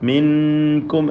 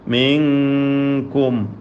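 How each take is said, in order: First: The n is pronounced fully and clearly. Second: The n is hidden, nasalized toward the k. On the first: The speaker calls it wrong. "മിൻകും എന്ന് വ്യക്തമാക്കരുത്" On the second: The speaker calls it right. "കാഫിൻ്റെ സ്ഥാനത്തേക്ക് പോവുകയാണ്"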